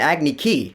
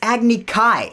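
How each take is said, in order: First: The last syllable sounds like 'key'. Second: The last syllable sounds like 'kye'. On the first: The speaker calls it wrong. "why are so many things mispronounced in this movie" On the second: The speaker calls it right. "It's Agni Kai"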